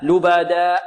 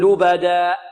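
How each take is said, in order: The two takes are said the same way.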